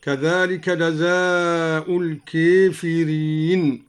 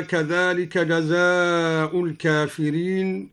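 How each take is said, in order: First: "الكافرين" said al-keefireen, aa tilted to ee; slowly tilt the alif of "الكافرين" towards ee; imala after kaf. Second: Said in the usual way. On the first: Shown as a demonstration. Teacher shows al-Duri's imala, "الكافرين" as al-keefireen. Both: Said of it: "أمالا ألف بعد الكاف هكذا".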